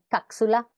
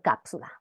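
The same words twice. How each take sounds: First: The p sound is replaced by a consonant. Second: The p sound is clearly pronounced. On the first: The speaker calls it wrong. "deformaciones vulgares del sonido P cuando aparece en posición final de sílaba por K o Z" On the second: The speaker calls it right. "Por cápsula"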